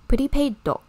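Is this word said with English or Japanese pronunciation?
Japanese. It is said with Japanese loanword pronunciation.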